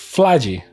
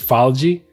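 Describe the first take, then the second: First: The L comes right before the first vowel. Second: The L comes after the first vowel. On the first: The speaker calls it right. "It's Flagi because P H reads like an F, and then and there is an L" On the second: The speaker calls it wrong. "I'm assuming it's Falgi. Well, no, actually, no, it's not Falgi"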